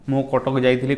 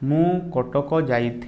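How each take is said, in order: First: The sentence is spoken very fast. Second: The sentence is spoken very slowly. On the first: "एमती speed कही दिखती" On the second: "आउ जने जने बहुत स्लो कहती"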